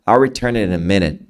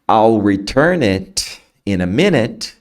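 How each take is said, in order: First: The T in "it" is softened and blended. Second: The T in "it" is clearly released.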